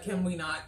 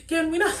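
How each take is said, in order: First: Said in the usual way. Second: Much higher-pitched mock pleading; exasperated plea. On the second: Reviewer reacting to where the scene is going, high exasperated plea. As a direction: repeat it high, in exaggerated disbelief.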